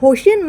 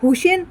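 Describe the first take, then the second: First: The first vowel sounds like o. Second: The first vowel sounds like u. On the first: The speaker calls it wrong. "তুই কি বললি যে হোসেন Mansuri?" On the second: The speaker calls it right. "ওই স্যারটার নাম হচ্ছে হুসেন মানসুরিয়া।"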